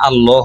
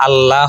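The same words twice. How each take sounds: First: "আল্লাহ" with a rounded "lo" second syllable; "আল্লাহ" the Arabic way, heavy rounded l and o; rounded o vowel. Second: "আল্লাহ" with an open "laa" second syllable; "আল্লাহ" the Bengali way, bright aa in "লা"; open aa vowel. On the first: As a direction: say "আল্লাহ" as al-loh. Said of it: "আল্লাহ হবে". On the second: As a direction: say "আল্লাহ" as al-laah. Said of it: "বাংলাতে আল্লাহ হবে না". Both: Shown as a demonstration.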